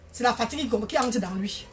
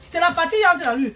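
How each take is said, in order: First: Said in the usual way. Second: Emphatic repeat. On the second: Real, not acted. Repeats the line emphatically to viewers.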